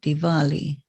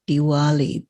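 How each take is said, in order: First: The w in Diwali is a V sound. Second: The w in Diwali is a W sound. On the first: The speaker calls it right. "but Diwali" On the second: The speaker calls it wrong. "you have to pronounce it not Diwali"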